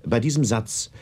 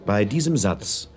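No difference in how they are said.

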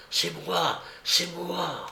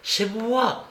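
First: Softer, fading repetition of C'est moi; ghostly echo. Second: C'est moi set higher, clear and ringing; first phantom call. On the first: Phantom voice echoing to Aratov, softer and fading. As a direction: let the phantom voice die away. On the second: The phantom announcing itself to Aratov, higher. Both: A narrator's reading.

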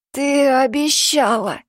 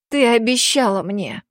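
First: Slow, higher hoarse plea. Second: Said in the usual way. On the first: Acted. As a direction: rasp it out, fading. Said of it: "Его голос стал хриплым". (хрипло, умоляюще)

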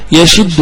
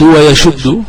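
First: يشد with an i after the ش, "yashiddu"; kasra variant. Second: ويشد with a u after the ش, "wa-yashuddu"; slow, careful "wa-yashuddu" for ويشد; damma variant. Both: Shown as a demonstration. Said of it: "وعي ذا وجهين".

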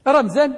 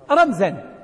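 First: رمزا said higher, with a rising end; emphatic repeat. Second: Said in the usual way. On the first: Shown as a demonstration. Teacher stressing the word for students, emphatic rise. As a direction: lift رمزا up as if to drill it in. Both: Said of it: "teacher repeats the word".

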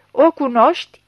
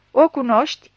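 First: Loud, higher, hammered question; insistent repeat. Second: Louder, harsh demand; snapped question. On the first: Chief repeats question to unresponsive blind man, forceful insistence. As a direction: press harder for an answer. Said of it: "repetă șeful". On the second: Chief questions blind suspect over the body, snapping. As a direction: snap it at the suspect. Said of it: "se răsti șeful". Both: A narrator's reading.

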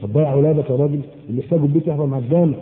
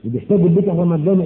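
First: Quick mocking quote. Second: Quick repeated mocking quote. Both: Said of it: "مش كده؟".

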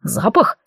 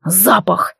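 First: ЗАПАХ with a rising questioning tune; puzzled echo question. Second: ЗАПАХ growled with a falling tune; growled exclamation. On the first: Elf repeats the werewolf's word, questioning. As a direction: echo it back as a surprised question. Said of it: "Эльф переспросил". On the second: Werewolf blurts out what bothers him, growling. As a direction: growl out the cause, tune dropping. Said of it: "зарычал". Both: A narrator's reading.

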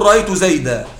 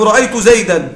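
First: زيدا said zaydā with a long a; رأيت زيدا ending on a drawn a; pausal form. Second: زيدا said zaydan with nunation; رأيت زيدا read in flow, ending -an; زيدا with its nun sounded; connected form. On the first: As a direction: stop on زيدا, no nun. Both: Shown as a demonstration. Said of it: "إذا وقفت تقول".

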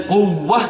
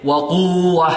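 First: قوة with the و doubled and pressed; قوة with a clear shadda on the waw; correct nabr. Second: وقوة with a long plain uu, no pressure on و; faulty وقوة, the doubled و lost; wrong, no shadda. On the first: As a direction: say quw-wa, leaning on the و of قوة. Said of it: "إذن قوة هذا الصحيح". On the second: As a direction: glide through وقوة as wa-quu-wa. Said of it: "هذا ماذا؟ خطأ". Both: Shown as a demonstration.

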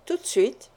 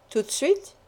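First: "Tout de suite" as an answer, falling to the end; confirming. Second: "Tout de suite" as a question, rising sharply on "suite". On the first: Wife confirms she did it at once, falling tone on "suite". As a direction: let "suite" drop, settling the question. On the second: Husband checks when she put it away, questioning rise on "suite". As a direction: lift the end of "suite" to ask. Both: Acted.

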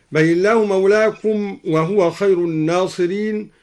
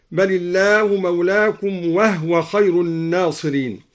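First: Said in the usual way. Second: وهو said "wahwa", h without vowel; vowelless h. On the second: Shown as a demonstration. Teacher shows al-Duri's reading of وهو as "wahwa". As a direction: close وهو on h before wa: "wah-wa". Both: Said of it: "سكن الدوري الهاء من وهو هكذا".

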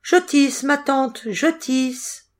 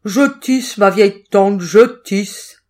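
First: Put-on high, light young girl's voice; small high-pitched reply; little girl answering. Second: Put-on loud, gruff cat posing as the girl; big, forceful cat reply; cat's big voice. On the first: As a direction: answer obediently in a raised, measured singsong. Little girl answers her aunt. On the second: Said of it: "répondit le chat d'une grosse voix". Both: A narrator's reading.

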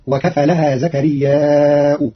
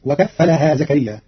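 First: وكفلها with light fa, زكرياء long with hamza; slow, stretch زكرياء and close on hamza u; Qalun reading. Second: وكفلها with doubled fa, زكريا short; وكفّلها zakariyya with short ending; Hafs reading. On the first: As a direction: wakafalaha zakariyya'u, drawn out. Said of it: "فقرأه بالمد مهموزا مع الرفع". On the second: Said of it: "قرأ قالون كلمتي وكفلها زكريا". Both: Shown as a demonstration.

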